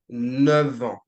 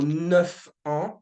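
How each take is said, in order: First: Neuf links to the next word with a V sound. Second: Neuf links to the next word with an F sound. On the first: The speaker calls it right. "but you would say ... A V" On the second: The speaker calls it wrong. "you would not say"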